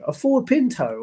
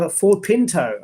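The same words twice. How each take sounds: First: "Ford" pitched much higher in disbelief; incredulous echo. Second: Said in the usual way. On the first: Real, not acted. Streamer echoing a chat car suggestion, incredulous and high. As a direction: echo "A Ford Pinto" back, high and amazed.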